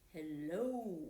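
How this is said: It is said in a very low voice.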